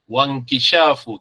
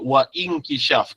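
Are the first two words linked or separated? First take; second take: linked; separated. First: The words run together with no glottal break. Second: The words are separated with a glottal break. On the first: The speaker calls it right. "kita sebut wankishafu walaupun ada hamzah tengah ni" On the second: The speaker calls it wrong. "kita tak sebut wa inkishaf"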